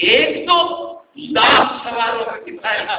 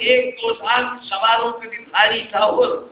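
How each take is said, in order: First: It is recited with exaggerated, magnifying emphasis. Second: It is recited in a plain, ordinary tone.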